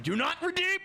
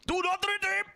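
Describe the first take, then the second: First: High, yelped mock warning; hammed-up falsetto warning; meme voice. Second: Even higher, strained falsetto yelp; over-the-top mock warning; meme voice again. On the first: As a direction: squeal it as a joke. Meme line shouted at chat. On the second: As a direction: push the squeal further. Repeats meme line.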